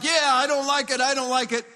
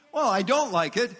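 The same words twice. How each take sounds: First: A touch of indignant complaining; mock angry grumble. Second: Said in the usual way. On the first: Preacher imitating an angry believer, mock grumble. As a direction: grumble it like an offended citizen. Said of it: "if I get angry and I get like".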